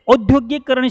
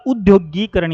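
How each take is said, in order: First: औद्योगिकरण with long औ at the start; औद्योगिकरण spoken with औ, short गि; wrong form. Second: उद्योगीकरण with short उ and long गी; उद्योगीकरण with उ at the start, long ई in गी; correct form. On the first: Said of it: "शब्द नहीं होता". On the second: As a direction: say उद्योगीकरण as the right version. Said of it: "शब्द होता है". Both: Shown as a demonstration.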